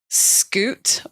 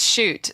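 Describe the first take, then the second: First: The name begins with an sk sound. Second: The name begins with an sh sound. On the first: This is how an American might read the name. "If I was American, maybe I would say Scoot" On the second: This is how the family says the name. "my name is Shoot"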